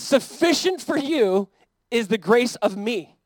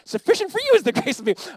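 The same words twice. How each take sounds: First: It is said in his normal voice. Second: It is said in an imitation of Yoda.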